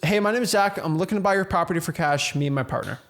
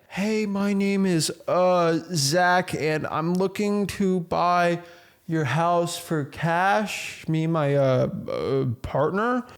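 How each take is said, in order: First: It sounds confident and direct, without filler sounds. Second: It sounds hesitant, with filler sounds and pauses.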